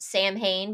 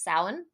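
First: The word is said the way it is spelled. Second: The word is said unlike its spelling. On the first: The speaker calls it wrong. "some people in their head pronounced Samhain" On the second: The speaker calls it right. "but it's pronounced Samhain, at least in the American pronunciation of it"

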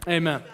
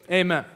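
The two takes are said the same way.

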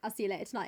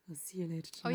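First: It is spoken in a plain, clear voice. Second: It is spoken in a low, soft murmur. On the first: It sounds like an ordinary remark. "if I were to say to you" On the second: It sounds suggestive and flirtatious. "if you murmur it"

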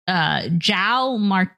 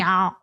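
First: The name begins with a hard J sound. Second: The name begins with a soft Y sound. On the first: The speaker calls it wrong. "I don't think that's at all how you said any of his name" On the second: The speaker calls it right. "they don't say hard J's, right? So it's like"

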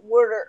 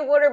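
First: The local accent sounds forced and overdone. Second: The local accent sounds relaxed and natural. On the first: This is how an outsider overdoes it. The speaker calls it wrong. "we don't say, like, water" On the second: This is how locals actually say it. The speaker calls it right. "we say water"

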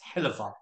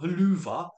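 First: The middle vowel is a weak uh sound. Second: The middle vowel is a long oo sound. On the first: The speaker calls it right. "H-E-L-L-U-V-A is Helluva" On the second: The speaker calls it wrong. "not Helluva, because it's not O-O"

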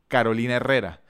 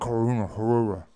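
First: The name is said with a Spanish accent. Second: The name is said with a mumbled English accent.

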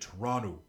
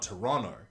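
First: The vowels are said the way locals say them. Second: The vowels are said in the speaker's own accent. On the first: The speaker calls it right. "it's actually Toronto, because they don't say their O's right" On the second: The speaker calls it wrong. "it's not Toronto"

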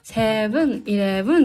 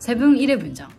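First: It is said with a Thai accent. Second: It is said with a Japanese accent.

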